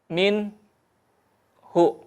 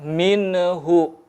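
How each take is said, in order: First: A short break separates the n from hu. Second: The n is released with a bouncing echo. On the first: "memutus ... saktah" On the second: "hindari memantul"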